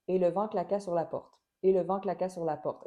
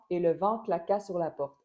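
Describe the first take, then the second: First: Et le vent claqua sur la porte, even and unaccented; no word stress. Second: Et le vent claqua sur la porte with vent and claqua accented on the last syllable; with word stress. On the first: Teacher reading the sentence with tonic accents removed. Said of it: "j'essaie volontairement d'enlever les accents toniques". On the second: Teacher adding tonic accents to the sentence. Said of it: "si j'ajoute seulement les accents". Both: Shown as a demonstration.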